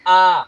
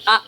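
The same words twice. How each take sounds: First: आ drawn out long; held long vowel. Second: आ cut short; short vowel. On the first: Teacher showing students a long vowel, आ drawn out. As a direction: hold आ as one long, steady vowel. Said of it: "अधिक समय लगता". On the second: Teacher showing the mistaken reading, आ said short. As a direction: say आ briefly, without holding it. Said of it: "इसको ऐसा नहीं पढ़ेंगे". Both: Shown as a demonstration.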